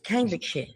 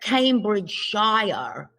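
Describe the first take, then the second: First: The ending is reduced to a short 'sher'. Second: The ending is said as a full 'shire'. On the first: The speaker calls it right. "It's Cambridgeshire" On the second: The speaker calls it wrong. "We don't say Shire. It's not Cambridgeshire"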